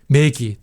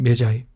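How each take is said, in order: First: The word is said with a hard g and ee. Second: The word is said with a j and eye. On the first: "메기 아니면" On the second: "영어식으로 발음하면 메자이"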